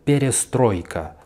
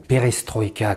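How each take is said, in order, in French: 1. L'accent tombe sur une syllabe avant la dernière. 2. L'accent tombe sur la dernière syllabe.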